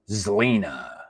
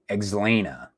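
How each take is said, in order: First: The name begins with a 'z' sound. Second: The name begins with an 'eks' sound. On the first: The speaker calls it right. "I think it's pronounced like a like a Z" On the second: The speaker calls it wrong. "It's not Xlena. That doesn't sound right because there's no E X"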